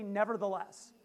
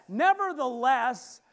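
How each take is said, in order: First: Said in the usual way. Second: Nevertheless slow and much louder; louder with conviction. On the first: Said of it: "everybody say". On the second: Shown as a demonstration. Preacher leading the congregation, slow loud nevertheless. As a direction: say nevertheless like you mean it. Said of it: "Say it louder with conviction".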